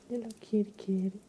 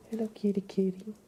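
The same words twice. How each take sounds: The two takes are said the same way.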